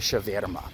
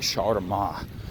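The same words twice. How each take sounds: First: It is said the Saint Petersburg way. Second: It is said the Moscow way. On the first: The speaker is from Saint Petersburg. "If you're from Saint Petersburg, you say" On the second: The speaker is from Moscow. "if you're from Moscow, you say"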